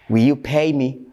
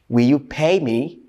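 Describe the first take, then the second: The two takes are said the same way.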